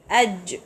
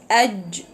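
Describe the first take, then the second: No difference in how they are said.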